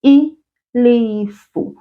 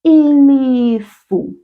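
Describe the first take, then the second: First: "Ilifu" drawn out even slower; slower second model of "Ilifu"; slow repeat. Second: "ilifu" said slowly, each syllable clear; slow teacher model of "ilifu"; slow model word. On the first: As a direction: say "Ilifu" very slowly for copying. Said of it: "Will you repeat that after me?". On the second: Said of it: "A cloud in isiZulu is". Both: Shown as a demonstration.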